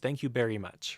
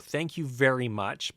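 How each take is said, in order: First: Very starts with a B sound. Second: Very starts with a V sound. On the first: The speaker calls it wrong. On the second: The speaker calls it right.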